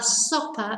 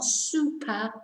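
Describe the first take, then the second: First: The first vowel sounds like o. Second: The first vowel sounds like oo. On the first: The speaker calls it right. "and la sopa" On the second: The speaker calls it wrong. "not supa"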